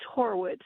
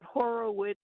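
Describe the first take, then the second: First: The name is said with two syllables. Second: The name is said with three syllables. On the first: The speaker calls it right. "It's two, it's two syllables" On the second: The speaker calls it wrong. "not Horowitz"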